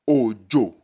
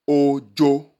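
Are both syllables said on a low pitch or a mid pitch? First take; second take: low; mid. First: Both syllables are said on a low pitch. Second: Both syllables are said on a mid pitch. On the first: The word means rain. "If we apply the tonal marks of do, do, we will have ojo" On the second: The word means timid. "if we apply the tonal marks of re, re, we will have ojo"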